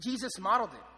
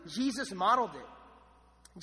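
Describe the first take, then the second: First: Said in the usual way. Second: Each word drawn out slowly; slow emphasis. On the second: Shown as a demonstration. Pastor stressing the point to the congregation, slow and deliberate. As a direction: lay the words down slowly for weight.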